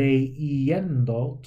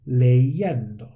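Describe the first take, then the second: First: The middle vowels are said separately and choppily. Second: The vowels blend smoothly through a y sound. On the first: The speaker calls it wrong. "sounds kind of a little bit awkward" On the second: The speaker calls it right. "It sounds much more fluid"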